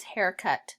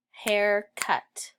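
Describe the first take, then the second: First: Said in the usual way. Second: "haircut" split as hair, pause, cut; two separate beats on "haircut"; snapped syllables. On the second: Shown as a demonstration. Teacher snapping out haircut, split into syllables. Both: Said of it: "Snap it".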